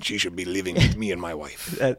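It is said in a put-on accent.

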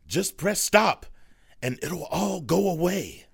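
The line is delivered in a frightened, scared way.

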